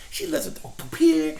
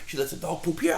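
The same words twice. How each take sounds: First: Pitched higher in outrage; indignant, high. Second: Said in the usual way. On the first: Real, not acted. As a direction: say it up high, incredulous. Indignant first take.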